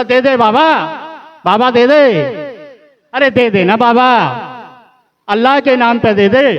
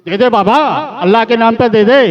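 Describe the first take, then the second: First: High, pleading beggar's call, a little louder; a hammed-up loud alms cry; loud begging. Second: Mock beggar's call, pitched up and pushing; a lightly hammed beggar's shout; loud begging. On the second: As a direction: repeat the alms cry as a pushy beggar. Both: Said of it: "बड़ा तेज तेज बोल रहा था".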